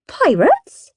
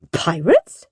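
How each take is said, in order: First: High, rising query; mum's incredulous question. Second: Lower-pitched, rising query; dad's incredulous question. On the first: Mum questions the children, high incredulous voice. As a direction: ask it high in puzzled surprise. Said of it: "said Mum". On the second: Dad echoes Mum's question, lower puzzled voice. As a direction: ask it in a dad's deeper puzzled voice. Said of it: "said Dad". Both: A narrator's reading.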